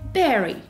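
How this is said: It is said with British pronunciation. "British pronunciation"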